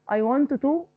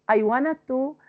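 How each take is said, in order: Both takes have the same delivery.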